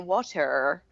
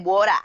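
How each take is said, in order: First: It is said in a Canadian accent, strong R. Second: It is said in an Australian accent.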